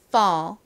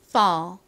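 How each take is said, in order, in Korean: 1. 이 모음은 열린 'uh' 소리입니다. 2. 이 모음은 열린 'uh' 소리입니다.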